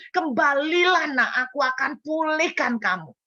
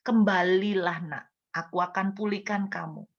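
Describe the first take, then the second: First: Fervent preached plea; impassioned call. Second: Hushed tender invitation; gentle call. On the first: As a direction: cry it out from the pulpit. God's call, preached climax. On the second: God's call, gently quoted. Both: Retold or imitated.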